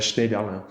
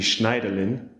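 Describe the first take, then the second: First: The name is pronounced the French way. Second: The name is pronounced the German way. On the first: "in French it's" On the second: "in German it would be"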